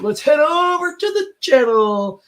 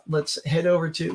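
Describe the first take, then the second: First: High, drawn-out singsong segue; slow, high-pitched playful announcement; mock announcer call. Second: Said in the usual way. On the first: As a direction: stretch it out in a high put-on voice. Repeats it as a show segue.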